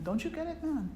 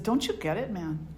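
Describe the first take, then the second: First: Put-on lilting, high-pitched Hindi accent. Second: Said in the usual way. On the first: Friend chiding the man who wants out, imitated Hindi accent. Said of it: "in his Hindi accent". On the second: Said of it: "You know, in his Hindi accent".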